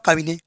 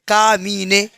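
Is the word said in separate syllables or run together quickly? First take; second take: run together; separate syllables. First: The syllables are run together quickly. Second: The syllables are said slowly and separately. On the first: "और जल्दी चलाओ" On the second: "तो पहले का, हाँ, मी ने"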